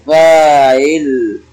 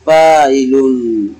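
First: Slow fāʕil ending on a still lām; fāʕil without nūn. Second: Fāʕilun drawn out with its final nūn; full form fāʕilun. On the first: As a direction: draw out fāʕil, dropping the final -un. (فاعِلْ ممدودة بحذف النون وتسكين اللام) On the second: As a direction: stretch out fāʕilun, sounding the -un ending. (فاعِلُنْ ممدودة بإثبات النون) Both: Shown as a demonstration. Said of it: "حذفنا النون الساكنة".

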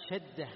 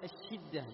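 First: شدة with an open a vowel on the ش; fatha on the shin. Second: الشدة with a short i vowel on the ش; kasra on the shin. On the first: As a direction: say شدة as "shadda", with an "a" after the sh. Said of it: "فتح الشين". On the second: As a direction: say الشدة as "ash-shidda", with an "i" after the sh. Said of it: "بكسر الشين". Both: Shown as a demonstration.

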